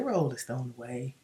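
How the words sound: It is said in a mild, polite tone. A gentle, polite request. The speaker calls it wrong. "When you're angry, you don't say"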